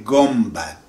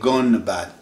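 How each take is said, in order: First: An m sound comes before the b. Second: An n sound comes before the b. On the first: The speaker calls it right. "They say gumbad" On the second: The speaker calls it wrong. "They don't say gunbad, N before B"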